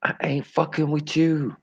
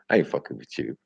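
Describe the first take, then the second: First: Squeaky mock repeat; high put-on voice. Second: Said in the usual way. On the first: Shown as a demonstration. Repeating his own line in a silly high voice.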